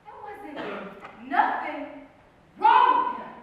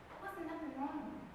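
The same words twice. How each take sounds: First: Emphatic insistence. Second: Hushed, slightly defensive statement; quiet insistence. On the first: Narrator defends the man, emphatically building. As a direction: punch each part, bursting out on the last. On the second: Narrator defends the man, quietly. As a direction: say it softly, almost to oneself. First take, softly said. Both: Acted.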